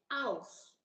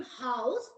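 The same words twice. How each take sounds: First: "house" without the H, as "ouse"; dropped H. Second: Said in the usual way. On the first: Shown as a demonstration. Teacher showing student the Cockney habit, "house" with H dropped. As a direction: say "house" starting straight on the vowel. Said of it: "they also drop H sound". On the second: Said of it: "So instead of saying house".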